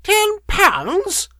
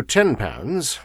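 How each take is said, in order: First: Very high screeching crone; outraged scream. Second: Said in the usual way. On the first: A narrator's reading. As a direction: shriek it as an outraged question. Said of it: "she screamed and raved at him".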